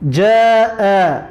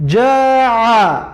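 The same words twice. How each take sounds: First: جاء ending in a glottal catch, slow; slow جاء, clean catch at the end; final hamza. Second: جاع ending in a throat ain; final ain. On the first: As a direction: close جاء with a light glottal stop. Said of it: "حرف همزه در آخر کلمه". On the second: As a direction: close جاع with a pharyngeal squeeze. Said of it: "حرف عین در آخر کلمه". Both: Shown as a demonstration.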